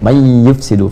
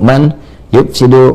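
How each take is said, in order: First: The two words run together into one stretch. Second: Each word is said separately, without linking. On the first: "Kalau kita bacakan ke Quran, tajwidnya masuk" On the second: "Kalau kita nggak pakai tajwid, kita bacakan satu-satu"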